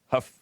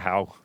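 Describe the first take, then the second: First: The name rhymes with stuff. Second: The name rhymes with cow. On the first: The speaker calls it right. "it's pronounced like Huff" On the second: The speaker calls it wrong. "I wanted to call it How"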